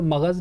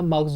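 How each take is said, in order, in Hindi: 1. इस शब्द में एक अतिरिक्त स्वर है, यानी यह दो अक्षरों का है। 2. यह शब्द एक बंद अक्षर में बोला जाता है। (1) "तो मगज़ नहीं होता" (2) "मग़ज़ होता है"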